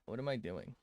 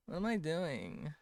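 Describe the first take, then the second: First: Said in the usual way. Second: Put-on high girly voice. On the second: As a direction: question asked much higher in mock girly voice. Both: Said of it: "Why did I sound like this?".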